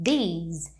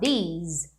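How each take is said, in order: The two takes are said the same way.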